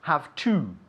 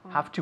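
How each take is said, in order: First: Each sound of both words is said fully. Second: The words blend together in a reduced form. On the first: The speaker calls it wrong. "we don't say have to" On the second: The speaker calls it right. "when we speak at a normal speed"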